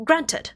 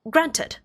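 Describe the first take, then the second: First: The T in the middle is clearly pronounced. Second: The T in the middle is clearly pronounced.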